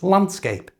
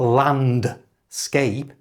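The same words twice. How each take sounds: First: The D sound is dropped entirely. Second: The D sound is clearly pronounced. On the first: The speaker calls it right. "I didn't pronounce the D at all" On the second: The speaker calls it wrong. "It's not landscape"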